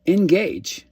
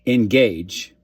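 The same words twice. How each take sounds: First: Engage, said high and loud; rising urgency on engage; punchy call to action. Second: Engage, loud but at normal pitch; Engage, a flat insistent command; firm repeat. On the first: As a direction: land the word engage hard and high. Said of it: "Like, follow, subscribe, share". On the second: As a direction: drive Engage home. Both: Shown as a demonstration.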